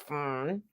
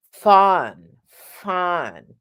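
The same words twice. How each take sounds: First: "fun" squeezed and soft, mouth nearly closed; no space in mouth. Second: "fun" with a tall, open vowel; space in the mouth. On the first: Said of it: "You need space in the mouth, not". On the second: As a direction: open the mouth wide inside for a roomy "fun". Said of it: "You need space in the mouth". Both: Shown as a demonstration.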